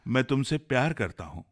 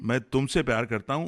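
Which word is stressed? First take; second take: प्यार; तुमसे. First: The stress is on प्यार. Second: The stress is on तुमसे.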